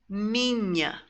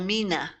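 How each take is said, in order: First: The n is followed by a y glide. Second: The n is plain, with no y glide. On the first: The speaker calls it right. "You've got to have that Y sound in there" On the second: The speaker calls it wrong. "So it's not vino or mina"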